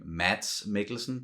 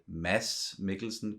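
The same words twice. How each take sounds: First: The D in Mads is a hard, clear D. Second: The D in Mads is very soft, nearly silent. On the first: This is how a non-Danish speaker would say it. "you would probably pronounce his name" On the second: This is how Danish speakers say it. "we say Mads Mikkelsen because it's a very soft D"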